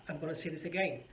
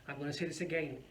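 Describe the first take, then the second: No difference in how they are said.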